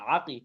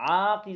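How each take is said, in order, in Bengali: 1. স্বরধ্বনিটি ছোট রাখা হয়েছে। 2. স্বরধ্বনিটি টেনে দীর্ঘ করা হয়েছে।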